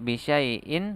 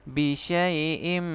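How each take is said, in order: First: The word ends with a plain n sound. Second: The word ends with a merged m sound. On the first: The speaker calls it wrong. "tidak bisyai'in" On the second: The speaker calls it right. "tapi bisyai'im, langsung dimasukkan ke huruf mim"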